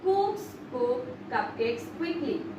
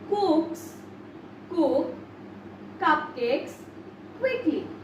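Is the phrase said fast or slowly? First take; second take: fast; slowly. First: The phrase is said at a faster pace. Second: The phrase is said very slowly.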